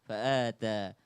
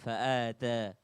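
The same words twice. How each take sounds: No difference in how they are said.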